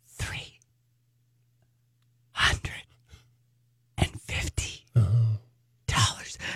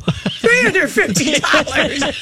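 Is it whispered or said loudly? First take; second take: whispered; loudly. First: It is whispered slowly. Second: It is said very loudly.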